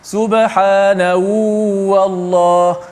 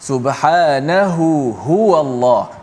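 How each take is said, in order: First: The second h sound is dropped. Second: Both h sounds are clearly heard. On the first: The speaker calls it wrong. "tak timbul dua-dua ha" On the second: The speaker calls it right. "kena jelas"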